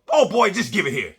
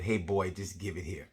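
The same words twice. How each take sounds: First: Put-on high, loud old grandma snapping at her son; feisty grandma taking over; grandma's voice. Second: Said in the usual way. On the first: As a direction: play the impatient grandmother. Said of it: "And my grandma goes". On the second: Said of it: "and she said".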